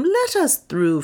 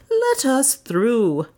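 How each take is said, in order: First: Much higher, slow request; asking the crowd to part; Leonard asking. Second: Higher, very slow insistent repeat; Leonard insisting. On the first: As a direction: Leonard first asking the throng to let them through. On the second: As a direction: press the request a second time, deliberately. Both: A narrator's reading.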